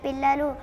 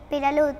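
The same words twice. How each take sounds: First: The middle consonant is held long and doubled. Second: The middle consonant is short and single. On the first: "ఉన్నది ఉన్నట్లుగా చెప్పాలి" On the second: "ఒత్తులు లేకుండా చెప్పాలి"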